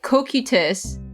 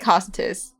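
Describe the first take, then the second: First: The name is pronounced the Japanese way. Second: The name is pronounced the English way. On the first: "In Japanese, they pronounce it kokutus" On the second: "I'm gonna just say cositus. It sounds better"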